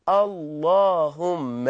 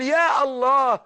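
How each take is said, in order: First: اللهم stretched very slowly, low and hushed; slow drawn-out Allahumma. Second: Said in the usual way. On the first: Shown as a demonstration. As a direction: draw out اللهم slowly and deep. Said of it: "فأصبحنا نقول". (نطق اللهم ببطء شديد وبصوت منخفض) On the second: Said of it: "لأننا حينما نقول".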